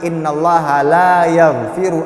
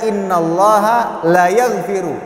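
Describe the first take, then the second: First: The vowel in 'la' is held long. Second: The vowel in 'la' is cut short. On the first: God does not forgive it. The speaker calls it right. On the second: God surely forgives it. The speaker calls it wrong.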